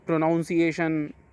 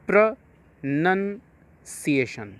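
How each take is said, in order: First: The second syllable sounds like 'noun'. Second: The second syllable sounds like 'nun'. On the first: The speaker calls it wrong. "कई बार लोग इसको प्रोनाउंसिएशन" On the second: The speaker calls it right. "आपको कुछ मात्रा नहीं इसमें जोड़नी है, simply प्रोनंसिएशन"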